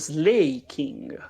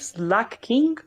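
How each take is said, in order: First: The first syllable sounds like 'slay'. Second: The first syllable sounds like 'slack'.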